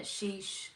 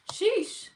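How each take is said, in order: First: Muttered "Sheesh" under the breath; soft sheesh. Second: "Sheesh" shot up high and loud, falling. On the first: Streamer reacting to a pretty viewer, soft mutter. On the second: Streamer hyping a pretty viewer, loud high sheesh. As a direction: hype it up high. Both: Real, not acted.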